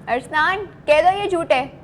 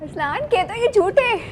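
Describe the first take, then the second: First: It is said in an angry tone. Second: It is said in an excited tone.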